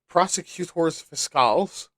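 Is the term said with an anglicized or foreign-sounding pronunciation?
foreign-sounding. The term is said with a foreign-sounding pronunciation.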